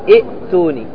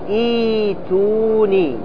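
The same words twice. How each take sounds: First: A glottal stop is pronounced after the first vowel. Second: The glottal stop becomes a long ee vowel. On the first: The speaker calls it wrong. "ما تقول ائتوني، لا تنطق بالهمزة" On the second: The speaker calls it right. "عندما تبتدي بها تقول ائتوني"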